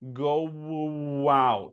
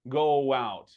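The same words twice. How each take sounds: First: The linking W sound between vowels is exaggerated. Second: The linking W sound between vowels is subtle. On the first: "I'm trying to really exaggerate it" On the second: "That is the way uh, you say this uh, phrase"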